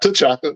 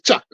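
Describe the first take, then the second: First: The name begins with a T sound. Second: The name begins without a T sound. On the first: The speaker calls it wrong. "not T'Chaka" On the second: The speaker calls it right. "it's Chaka"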